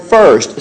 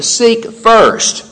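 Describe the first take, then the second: First: Said in the usual way. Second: Seek first with first lifted high; preacher's emphasis on first; stress on first. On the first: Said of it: "he uses the word". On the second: Shown as a demonstration. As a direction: punch first, then let it fall. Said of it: "he uses the word "first".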